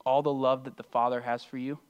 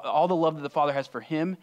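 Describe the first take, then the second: First: Said in the usual way. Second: "him" firmly emphasized, louder phrase; stress on him. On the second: Real, not acted. Preacher corrects whose love is being shared, stress on "him". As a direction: correct yourself, pushing the love and the word "him". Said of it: "The lo-, all the love".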